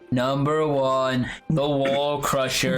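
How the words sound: It is read in the Chill's voice.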